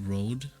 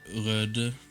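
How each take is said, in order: First: The name is pronounced the English way. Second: The name is pronounced the Norwegian way. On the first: "I think English people just call it Rode" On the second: "I would say Röde. That's how we would say it here"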